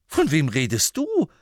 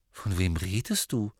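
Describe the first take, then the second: First: Higher, louder echo of the question; incredulous echo. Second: Said in the usual way. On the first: Acted. Harry echoing Ron's question in loud disbelief. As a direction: throw the question back in disbelief. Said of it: "erwiderte Harry". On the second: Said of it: "Ron blinzelte".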